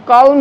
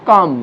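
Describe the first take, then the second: First: "কাউন" with an l before m; raised "কাউন" with audible l; wrong pronunciation. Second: "কাম" as "kaam", no l; silent l. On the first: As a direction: say "কাউন" as "kalm", voicing the l. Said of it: "কাউন বলবো না". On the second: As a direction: say "কাম" with the l dropped. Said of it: "এলটা উচ্চারিত হবে না". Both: Shown as a demonstration.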